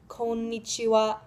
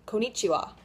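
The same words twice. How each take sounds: First: The middle n sound is held longer. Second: The middle n sound is short. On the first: The speaker calls it right. "to hold the in in the middle just a little bit longer" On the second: The speaker calls it wrong. "You've probably heard it as konnichiwa"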